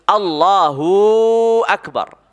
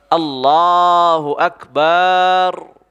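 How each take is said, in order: First: The vowel of hu is drawn out long. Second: The vowel of ba is drawn out long. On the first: "panjang hunya" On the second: "dipanjangkan baknya"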